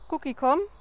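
The call sounds casual and offhand.

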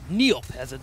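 It sounds harsh, like a mean command. The speaker calls it right. "I can be mean"

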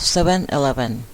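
It is said with an English accent. The speaker calls it right. "ภาษาอังกฤษจริงเราเรียกว่า"

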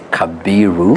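The name has a b sound after ka. This is how Nairobi and schools say it. "Nairobi and the group of schools they say Kabiru"

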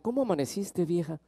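It is said warmly and tenderly. The speaker loves the partner. "recién casado, con mucho cariño"

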